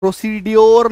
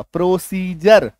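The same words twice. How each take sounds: First: प्रोसीड्योर with a hard d and a yor ending; wrong pronunciation. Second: प्रोसीजर said slowly with a j sound for the d; correct pronunciation. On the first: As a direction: say प्रोसीड्योर as pro-see-dyor, a hard d. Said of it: "प्रोसीड्योर नहीं बोलेंगे". (प्रोसीड्योर, कठोर ड के साथ गलत उच्चारण) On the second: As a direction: say प्रोसीजर as pro-see-jar, d turned to j. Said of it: "प्रोसीजर बोलेंगे". (प्रोसीजर, डी को ज बोलकर धीरे से) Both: Shown as a demonstration.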